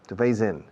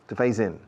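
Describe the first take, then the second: No difference in how they are said.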